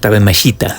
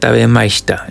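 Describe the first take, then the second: First: The i sound is clearly and fully pronounced. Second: The i sound is weak, almost silent. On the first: The speaker calls it wrong. "no es" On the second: The speaker calls it right. "la I es muy débil, entonces sería"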